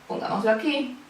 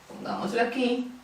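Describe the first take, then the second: Both takes have the same delivery.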